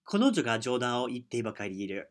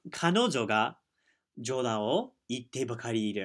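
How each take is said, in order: First: It is said at a faster pace. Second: It is said at a slower pace.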